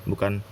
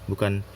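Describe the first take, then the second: No difference in how they are said.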